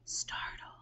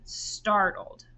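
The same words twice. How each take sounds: First: The word is whispered with no full voice. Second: The word is spoken in a full voice. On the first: "now I want you to whisper it" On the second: "I want you to say it in a normal voice first"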